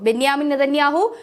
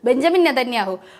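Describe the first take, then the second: First: The first name is said with a 'y' sound. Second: The first name is said with a 'j' sound. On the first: This is how foreign news pronounces the name. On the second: This is the familiar local form of the name.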